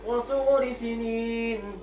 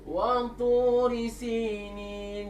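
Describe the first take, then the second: First: The first vowel of sinin is cut short. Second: The first vowel of sinin is drawn out long. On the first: It means several years. The speaker calls it wrong. "Kalau kita tak panjangkan dia" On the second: It means Mount Sinai. The speaker calls it right. "Dipanjangkan ya tu"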